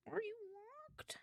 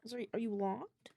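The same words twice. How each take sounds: First: Soft, high and slow, coaxing a stubborn tablet; high pleading question. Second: Said in the usual way. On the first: Real, not acted. Coaxing a locked iPad in a high, soft voice. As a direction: ask it sweetly, like a pet.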